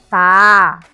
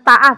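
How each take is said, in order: First: The vowel is held long. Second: The vowel is short. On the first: The speaker calls it right. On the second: The speaker calls it wrong.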